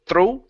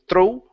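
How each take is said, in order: No difference in how they are said.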